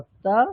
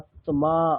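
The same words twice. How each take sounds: First: The m sound is not clearly pronounced. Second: Both the t and m sounds are clearly pronounced. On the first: This is the everyday Bengali pronunciation. "বাংলাতে যেটা আমরা বলি" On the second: This is the Sanskrit pronunciation. "সেটাকে বলতে হবে আত্মা, ... ত ম দুটোরই স্পষ্ট উচ্চারণ করতে হবে"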